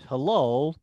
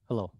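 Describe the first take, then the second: First: The word is said with a changed, expressive tone. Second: The word is said in a flat, neutral tone. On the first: It carries a different meaning. "Now I'm changing my voice and tone of voice" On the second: It conveys no particular feeling. "I say the word hello, normally"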